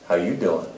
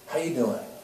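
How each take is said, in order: First: It is said in a suggestive, flirtatious way. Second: It is said softly and warmly, with care.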